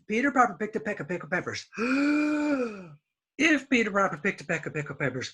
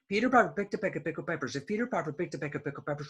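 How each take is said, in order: First: It stops for a breath between sentences. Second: It is said fast without any pause. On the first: The speaker calls it wrong. "You cannot stop. You cannot say" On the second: The speaker calls it right. "You have to say it really fast"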